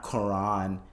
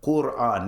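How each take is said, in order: First: Quran said ker-AHN, with an r-colored first syllable and no oo; mock wrong Quran. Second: Quran said koo-RAHN, with a clear oo and long final ahn; correct Quran. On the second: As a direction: Quran with the vowel oo after the k, then stressed RAHN. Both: Shown as a demonstration. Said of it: "not Quran".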